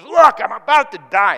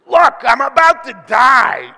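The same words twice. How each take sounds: First: Much louder, melodramatic whine rising on Look; drama queen. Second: Much louder, slow, whiny wail; milk it like a melodramatic diva; drama queen. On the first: Pastor repeating Esau's melodramatic claim, wailing. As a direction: overplay the dying act. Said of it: "into the drama queen". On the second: Pastor mocking Esau as a drama queen, wailing. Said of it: "turns from the big hairy man into the drama queen". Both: Acted.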